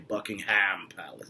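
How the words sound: Buckingham is said with an American pronunciation. The speaker calls it wrong. "I hate when people say Buckingham Palace. ... Americans say"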